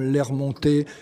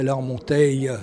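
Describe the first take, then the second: First: The word ends without an extra final vowel. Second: The word ends with an extra final vowel sound. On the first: "avec des mots comme l'air monté" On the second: "qui se disait l'air monteille, on prononçait le E final"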